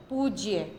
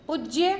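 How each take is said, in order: First: पूज्य with long u, falling; पूज्य said pooj-ya with a long u; correct form. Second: पूज्य with short u, rising; पूज्य said puj-ya with a short u; wrong form. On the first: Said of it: "ये उनका सही रूप है". (सही रूप पूज्य, बड़ा ऊ) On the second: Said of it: "ये गलत शब्द है". (गलत रूप पूज्य, छोटा उ) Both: Shown as a demonstration.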